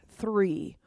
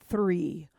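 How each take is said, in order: Both takes have the same delivery.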